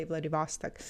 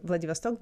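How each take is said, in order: First: Vladivostok stressed on the middle "VOS"; American pronunciation. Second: Vladivostok stressed on the final "stok"; Russian pronunciation. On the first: Retold or imitated. Teacher shows what Americans say, middle syllable stressed. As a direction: open "vahs" stressed in Vladivostok, weak ending. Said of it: "they say". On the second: Shown as a demonstration. Teacher gives the Russian form for contrast, last O stressed. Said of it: "they say Vladivostok".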